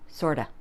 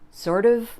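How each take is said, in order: First: The words run together into one reduced form. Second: Both words are said fully and separately.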